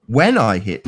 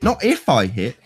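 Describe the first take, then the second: First: "when" hit hard with a falling tune; stress on when. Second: "if" lifted with a rising tune; stress on if. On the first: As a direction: punch "when" to set it against "if". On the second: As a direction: push up on "if", the word he didn't say. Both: Shown as a demonstration.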